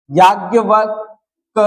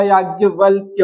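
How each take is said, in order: First: याज्ञवल्क as marked wrong, without final य; याज्ञवल्क said as the mistake; याज्ञवल्क, the incorrect form; wrong spelling. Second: याज्ञवल्क्य with the full क्य ending; याज्ञवल्क्य said as the right form; याज्ञवल्क्य, the correct version; correct spelling. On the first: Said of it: "याज्ञवल्क नहीं होगा". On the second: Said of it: "क लगेगा". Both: Shown as a demonstration.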